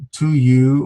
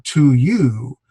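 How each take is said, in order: First: Said in the usual way. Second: "you" stressed, long, with a rise and fall in pitch; emphasis on you. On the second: Shown as a demonstration. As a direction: punch and stretch "you" in "to you". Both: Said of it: "some emphasis there".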